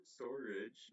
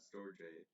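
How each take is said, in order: First: "storage" said as STOR-ij; correct pronunciation. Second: "storage" said as STOR-jay; mistaken pronunciation. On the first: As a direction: end "storage" on a short IJ. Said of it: "pronounced as storage". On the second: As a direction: turn the end of "storage" into JAY. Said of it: "not storage". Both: Shown as a demonstration.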